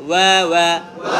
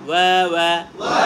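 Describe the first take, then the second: No difference in how they are said.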